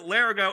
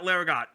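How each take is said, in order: First: The name ends without a T sound. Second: The name ends with a T sound. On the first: "Why is it Larigo" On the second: "which has a T at the end"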